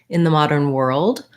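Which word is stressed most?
world. The strongest stress falls on world. "with more length on world"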